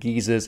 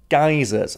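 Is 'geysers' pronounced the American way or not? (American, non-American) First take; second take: non-American; American. First: The word is pronounced in a non-American way. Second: The word is pronounced the American way. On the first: "I did look up the pronunciation and geysers is correct" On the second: "Americans like to pronounce it geysers"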